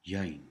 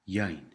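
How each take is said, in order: First: The vowel is an 'ai' glide sound. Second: The same.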